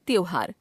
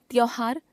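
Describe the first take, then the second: First: Said in the usual way. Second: त्योहार as "tyauhaar", open au for o; wrong pronunciation. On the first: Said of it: "शुद्ध". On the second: Shown as a demonstration. Teacher showing an o-au error, त्योहार said as "tyauhaar". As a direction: widen the o of त्योहार, rising. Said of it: "अशुद्ध".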